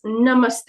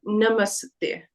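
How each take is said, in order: First: Slow careful "Namaste" with the s joined straight to the te; "Namaste" as it is said in Hindi; right way. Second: Slow "Namaste" with an uh between the s and the te; "Namaste" over-spelled with an added vowel; wrong way. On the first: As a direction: say "Namaste" slowly, with only half an s and no vowel after it. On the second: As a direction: say "Namaste" as nuh-muh-suh-tay, the wrong way. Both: Shown as a demonstration. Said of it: "it's not Namaste".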